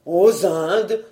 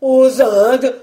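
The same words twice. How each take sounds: First: Restrained put-on horror; feigned dread. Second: Loud, raised cry of mock horror; loud, higher, appalled question; feigned terror. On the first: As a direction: echo it as if suddenly appalled. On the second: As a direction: cry out in put-on fright. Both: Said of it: "en feignant une subite épouvante".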